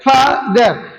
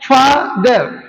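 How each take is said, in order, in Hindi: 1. यह शब्द दो अलग हिस्सों में बंटा है। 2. यह शब्द दो अलग हिस्सों में बंटा है।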